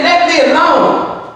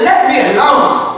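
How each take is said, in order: First: Slow, deliberate, a hint of God's stern voice; God's stern command. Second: Rising, disbelieving echo of the quote; incredulous question. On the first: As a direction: lightly voice God pushing Moses away. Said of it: "He said". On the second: Retold or imitated. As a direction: ask it as if you can't believe God said it. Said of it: "Can you imagine God telling Moses".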